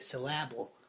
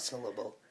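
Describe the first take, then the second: First: The stress is on the second syllable. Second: The stress is on the first syllable. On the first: "I'm just putting lots of emphasis on the A" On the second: "Not syllable"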